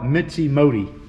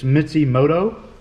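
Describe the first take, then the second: First: The name ends with a sound like 'modi'. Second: The name ends with a sound like 'moto'. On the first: This is the speaker's own habitual version. The speaker calls it wrong. "I call it Mitzi Modi" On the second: This is the company's own version. The speaker calls it right. "I guess is how they pronounce it"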